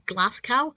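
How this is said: It is said with an American pronunciation. The speaker calls it wrong.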